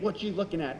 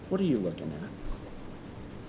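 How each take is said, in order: First: It is said with hostile contempt. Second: It is said warmly, with love. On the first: The looker is being challenged with hostility. "We have this contempt, this just immediate" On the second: The listener is being invited to look elsewhere. "He's saying it with love"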